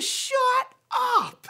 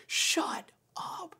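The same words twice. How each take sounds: First: High, loud mock shriek; astonished disbelief. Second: Whispered, dumbstruck mock exclamation; stunned disbelief. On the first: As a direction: imitate a stunned man, split into two big beats. Homeless man's retold astonishment. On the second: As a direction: imitate a man too amazed to voice it. Homeless man's retold stunned disbelief.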